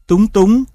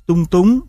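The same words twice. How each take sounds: First: Said in the usual way. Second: Level "tung", then rising "túng"; "tung túng" with two different tones; tone dissimilation. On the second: Shown as a demonstration. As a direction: keep "tung" unmarked and level before "túng" rises. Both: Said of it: "còn xảy ra chỉ ở thanh điệu".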